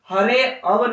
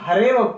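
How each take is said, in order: First: An extra 'a' vowel is pronounced after 'hare'. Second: No extra vowel is pronounced after 'hare'. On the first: The speaker calls it wrong. "इसको हम हरे अव नहीं पढ़ेंगे" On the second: The speaker calls it right. "सिर्फ हम हरेव पढ़ेंगे"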